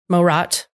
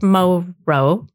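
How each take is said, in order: First: The name ends with a clear final T sound. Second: The name ends without a final T sound. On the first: The speaker calls it right. "I would imagine you would pronounce the T" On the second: The speaker calls it wrong. "I think it's pronounced Moro"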